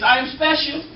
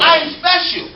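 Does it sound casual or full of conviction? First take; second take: casual; conviction. First: It is said plainly, without strong conviction. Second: It is said with strong conviction.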